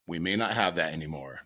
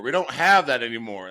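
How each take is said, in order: First: Said in the usual way. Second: High, loud worried insisting; dad in the passenger seat, high and louder, pleading; alarmed dad. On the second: Retold or imitated. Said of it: "That's what he kept saying".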